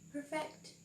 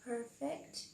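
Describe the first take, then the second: First: "perfect" as a verb, per-FECT, second syllable stressed; "perfect" stressed on the end. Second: "Perfect" as a noun, PER-fect, first syllable stressed; "Perfect" stressed up front. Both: Shown as a demonstration. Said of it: "Repeat after me".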